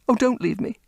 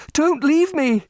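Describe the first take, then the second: First: High, pleading; beg, near tears; desperate plea. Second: Higher, louder, breaking plea; desperate cry. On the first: Repeated plea, rising despair. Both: Acted.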